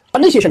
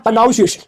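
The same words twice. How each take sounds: First: Said in the usual way. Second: "प्रोनाउंसिएशन" said with a "nau" in it; wrong pronunciation. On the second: Shown as a demonstration. Teacher showing a common mistake, "प्रोनाउंसिएशन" mispronounced with "noun". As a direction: say "प्रोनाउंसिएशन" as "pro-noun-ciation". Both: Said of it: "प्रोनंसिएशन होता है यार".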